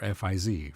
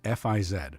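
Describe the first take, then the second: First: The letters are spelled the American way. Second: The letters are spelled the non-American way.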